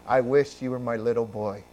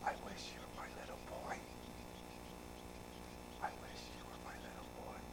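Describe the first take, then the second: First: Said in the usual way. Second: Quick voiceless whisper. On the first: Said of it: "did you hear what I said?". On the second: Retold or imitated. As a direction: breathe it out as a tender secret. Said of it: "I'm sorry, I whispered".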